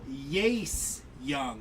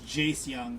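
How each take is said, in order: First: The first name begins with a Y sound. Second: The first name begins with a J sound. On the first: It is a joke pronunciation. The speaker calls it wrong. "You just pronounce the J the same way on the last name" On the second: It is the real pronunciation. The speaker calls it right. "I know it's Jace Young"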